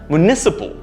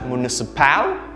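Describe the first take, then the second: First: The second syllable is stressed. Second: The second syllable is not stressed. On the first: The speaker calls it right. "The stress should be there in the second syllable" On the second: The speaker calls it wrong. "This is incorrect. The stress is wrong here"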